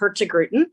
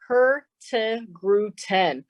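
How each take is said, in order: First: The name is said at normal speed. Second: The name is said very slowly.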